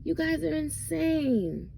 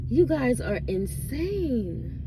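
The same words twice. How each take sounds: First: Incredulous repeat. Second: Slow, higher, drawn-out disbelief; exasperated disbelief. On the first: Vlogger repeats the verdict on gossip fans, high and incredulous. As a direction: say it again, pitched way up in disbelief. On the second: Vlogger tells gossip-obsessed fans they're crazy, slow and drawn out. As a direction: stretch it out, stunned at them. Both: Real, not acted.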